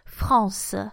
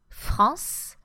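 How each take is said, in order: First: The final E is pronounced as a schwa. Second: The final E is silent. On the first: This is how the south of France says it. "the accent of the south of France" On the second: This is how most regions of France say it. "simply not pronounced in most regions of France"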